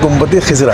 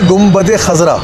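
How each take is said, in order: First: The second word begins with the vowel 'i'. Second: The second word begins with the vowel 'a'. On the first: The speaker calls it wrong. "उसको कहते हैं गुम्बद खिज़रा" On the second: The speaker calls it right. "एक है गुम्बद खज़रा"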